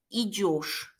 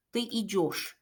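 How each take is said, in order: First: Идёшь said with a clear yo sound, not ye; pron idёшь with yo. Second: Ты идёшь with a clear yo, stressed ё; pron idёшь with yo. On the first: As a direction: stress the ё in идёшь as yo. (идёшь를 예시가 아닌 요시로 발음) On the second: (ты идёшь를 요시로 또박또박) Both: Shown as a demonstration. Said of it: "예시가 아니고 요시라는 점에".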